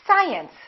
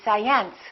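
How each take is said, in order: First: The stress is on the first syllable. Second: The stress is on the second syllable. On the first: The speaker calls it right. "it's the first one" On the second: The speaker calls it wrong. "If this mark were located over here"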